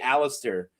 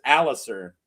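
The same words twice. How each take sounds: First: The name is said with an added T sound. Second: The name is said without a T sound. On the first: The speaker calls it wrong. "I always want to add a T. I always say Alistair" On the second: The speaker calls it right. "but it's Alistair"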